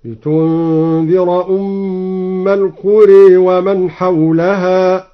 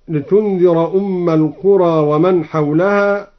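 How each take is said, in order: First: Slow recitation, last vowel of القرى bent to e; القرى with alif after ra tilted toward e; imala. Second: Said in the usual way. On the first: Shown as a demonstration. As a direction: chant slowly, saying القرى as al-quree. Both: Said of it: "أمال الألف بعد الراء هكذا".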